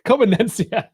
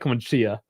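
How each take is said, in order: First: The name is said with an extra syllable. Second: The name is said with one syllable fewer. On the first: The speaker calls it right. "There's another syllable in there" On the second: The speaker calls it wrong. "I was saying like Comencia, like commence"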